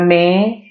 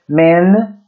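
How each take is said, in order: First: The vowel is nasalized like Portuguese. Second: The vowel is oral, tongue closing on n. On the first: The speaker calls it wrong. "Não é men... Não é nasalado" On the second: The speaker calls it right. "A língua deve tocar o céu da boca"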